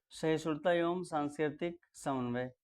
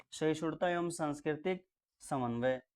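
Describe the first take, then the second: Both takes have the same delivery.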